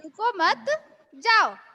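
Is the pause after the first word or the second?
second word. The pause comes after मत.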